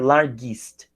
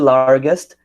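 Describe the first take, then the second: First: An extra 'ee' sound comes before 'st'. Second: The ending is a plain 'est' sound. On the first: The speaker calls it wrong. "ia ficar largest, com dois is" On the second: The speaker calls it right. "ao invés de largest"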